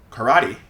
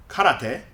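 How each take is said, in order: First: Karate as kuh-RAH-dee, middle stressed; American pronunciation. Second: Karate as even kah-rah-teh; Japanese pronunciation. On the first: Teacher explains the American habit, karate as kuh-RAH-dee. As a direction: say karate with schwa and a tapped DEE. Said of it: "Americans pronounce it as karate". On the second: Teacher contrasts with American habit, karate as Japanese kah-rah-teh. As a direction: keep every vowel of karate pure, ending TEH. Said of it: "instead of karate". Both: Shown as a demonstration.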